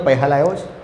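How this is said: The word is said with an h sound. This is how Surati dialect speakers say it. "એ લોકો ... સસલાનો સ છે એને હ જ બોલે"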